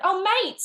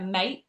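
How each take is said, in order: First: "mate" with the final T clearly sounded; acted realisation, high and loud, landing the T in "mate"; T pronounced. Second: "mate" with the final T swallowed; dropped T. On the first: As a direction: exclaim "Oh, mate", high, with an audible T. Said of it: "I went". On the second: Shown as a demonstration. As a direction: Essex "mate", no audible T at the end. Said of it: "like you can't hear the T sometimes".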